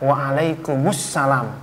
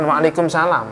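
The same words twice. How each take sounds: First: The article sound comes before 'salam'. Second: No article sound comes before 'salam'. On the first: The speaker calls it right. "Saya jawabnya ... Ada alnya" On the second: The speaker calls it wrong.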